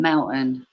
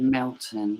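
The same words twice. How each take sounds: First: MELTON said with the T left out; dropped T. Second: MELTON with the T pronounced; sounded T. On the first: Explaining how I speak, Melton without its T. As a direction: swallow the T in Melton. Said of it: "I miss the T out". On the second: Contrasting with how I speak, Melton with its T. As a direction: say Melton with a clear T in it. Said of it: "Instead of Melton". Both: Shown as a demonstration.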